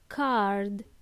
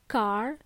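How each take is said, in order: First: The final D sound is clearly pronounced. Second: The final D sound is left off. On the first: The speaker calls it right. "it's card. Please pronounce the last letter" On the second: The speaker calls it wrong. "It's not car"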